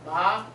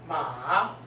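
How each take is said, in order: First: The pitch rises from mid to high. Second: The pitch dips low, then rises. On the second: "the third tone"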